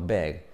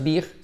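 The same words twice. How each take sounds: First: The vowel sounds closer to an e. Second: The vowel sounds like a Spanish i. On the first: The speaker calls it right. "sino big" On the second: The speaker calls it wrong. "no es big"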